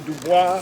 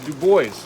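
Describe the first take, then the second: First: The name is said with a French pronunciation. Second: The name is said with an English pronunciation. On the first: "the original form of that is French, and it would be Dubois" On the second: "lots of other people anglicize that to Du Bois"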